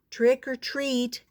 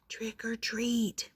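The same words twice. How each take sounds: First: It is said a little louder. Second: It is said very softly.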